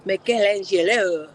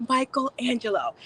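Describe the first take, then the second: First: Muddled, badly attempted French accent. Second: Said in the usual way. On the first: Shown as a demonstration. Host picturing a sculptor by name, attempted French accent. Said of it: "I was trying to do French".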